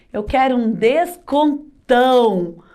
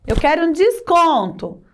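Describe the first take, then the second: First: "descontão" broken up and stretched on the final ão; augmentative stress. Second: Said in the usual way. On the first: Shown as a demonstration. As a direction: draw out "descontão" to make it big. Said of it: "Ou seja, aumentou". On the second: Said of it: "Eu não quero só um desconto".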